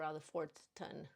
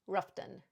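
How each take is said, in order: First: The name is said with every syllable. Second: The name is shortened to two syllables. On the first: This is the full written name. "pronouncing all the way" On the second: This is how local people say it. "as locals and natives say"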